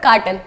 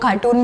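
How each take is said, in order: First: कार्टन with a short, neutral second vowel; कार्टन said crisply, no oo sound; the correct कार्टन, short a in the second syllable; correct pronunciation. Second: कार्टून said with a long oo, like the word cartoon; कार्टून, stretching the vowel into oo; the mistaken कार्टून with oo in the second syllable; wrong pronunciation. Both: Shown as a demonstration. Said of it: "but वो cartoon is not a correct word".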